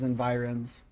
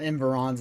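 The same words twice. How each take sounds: First: Environs as en-VY-runz; corrected pronunciation. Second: Environs said the wrong way, middle syllable reduced; mispronounced word. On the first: Player correcting a place name, corrected pronunciation of "environs". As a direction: say "environs" with a long "vy" in the middle. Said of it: "it's environs". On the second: Player showing the wrong reading of a place name, mispronounced "environs". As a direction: say "environs" without the long "vy". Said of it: "Not environs, it's environs". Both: Shown as a demonstration.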